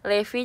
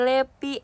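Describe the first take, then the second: First: The middle consonant is a V sound. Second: The middle consonant is a P sound.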